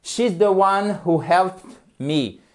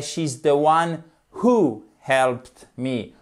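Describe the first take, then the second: First: Slow, careful example; slow English example; slow model sentence. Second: Who stressed, sentence said very slowly; slow example stressing who. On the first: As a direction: spell out the example slowly. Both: Shown as a demonstration.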